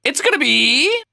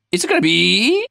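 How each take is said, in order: First: Much higher squeaky build; a high teasing build before the reveal; peak suspense. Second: Higher, more eager repeat; teasing suspense, climbing higher; rising suspense. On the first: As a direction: push the tension to the top. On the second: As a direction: build the suspense up a notch. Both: Acted.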